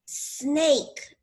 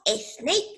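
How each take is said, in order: First: "snake" starting straight on a long s; long initial S. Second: "snake" wrongly said as "esnake"; added E before S. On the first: Teacher correcting the learners' esnake, long initial S. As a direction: hiss the s first, no vowel before "snake". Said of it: "Primero hacemos el sonido". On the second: Teacher showing learners the mistake, added E before S. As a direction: put a short e before the s of "snake". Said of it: "Porque no decimos snake, no". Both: Shown as a demonstration.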